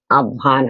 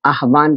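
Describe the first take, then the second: First: आह्वान said aavaan, h dropped; easier pronunciation. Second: आह्वान with the h sounded, aah-vaan; harder pronunciation. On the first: Teacher showing students the easier spoken form, h dropped. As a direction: say आह्वान smoothly as aa-vaan. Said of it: "आह्वान आसान हो गया". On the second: Teacher showing students the form that is harder to say, h sounded. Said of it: "आह्वान को बोलना थोड़ा कठिन है". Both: Shown as a demonstration.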